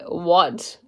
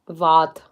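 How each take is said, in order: First: It is said with a plain English accent. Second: It is said with a German accent. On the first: "other than like what" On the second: "if I was to say in a German accent"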